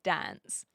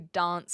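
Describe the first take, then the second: First: Dance has a flat, general Australian vowel. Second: Dance has a broad, British-like vowel. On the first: This is how other Australians say it. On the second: This is how South Australians say it.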